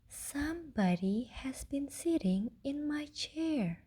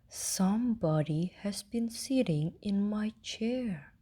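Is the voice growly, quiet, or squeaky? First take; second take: quiet; growly. First: It is said in a quiet, gentle voice. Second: It is said in a loud, growly voice. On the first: "in a quiet, gentle voice" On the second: "roared with a growly voice"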